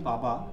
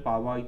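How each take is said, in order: First: The middle consonant is a 'b' sound. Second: The middle consonant is a 'w' sound. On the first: "আমি বলছি পাবা" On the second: "Hindi উচ্চারণে পাওয়াই তো হবে, ওয়া উচ্চারণে"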